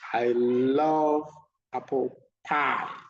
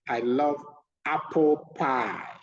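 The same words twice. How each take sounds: First: The word pie carries the strongest stress. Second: The word apple carries the strongest stress. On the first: It is pie that is wanted, not another apple food. "You want the pie" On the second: Apple is the favorite flavor, not another fruit. "this means that apple is the favorite"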